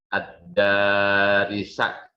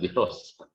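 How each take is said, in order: First: The vowels are a then i. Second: The vowels are i then o. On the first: The speaker calls it right. "Ad-darisa, bukan darosa, bukan dirosa" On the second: The speaker calls it wrong. "bukan dirosa"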